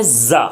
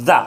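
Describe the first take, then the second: First: "زا" with a hard buzzed z; forceful ZA. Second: "زا" as th in "this"; tongue tip under upper teeth, breathe out "زا"; soft airy ZA. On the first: Teacher contrasting two za sounds, forceful za. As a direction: press firmly on the z of "زا". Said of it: "زور دے کر". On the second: Teacher demonstrating tongue placement, soft airy za. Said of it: "زبان کی نوک کو اسی اوپر والے دانت کے نیچے رکھنا ہے". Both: Shown as a demonstration.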